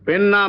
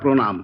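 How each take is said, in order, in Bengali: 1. শব্দটি 'র' ধ্বনি ছাড়া বলা হয়। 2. শব্দটি 'র' ধ্বনি সহ বলা হয়। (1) "পেন নাম নয়" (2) "একটা রফলা লাগবে।"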